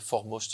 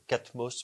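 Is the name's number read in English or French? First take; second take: English; French. First: The number is read as English four. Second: The number is read as French quatre. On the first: The speaker calls it right. "il faut prononcer Foremost en anglais" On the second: The speaker calls it wrong. "ça s'appelle Catmos"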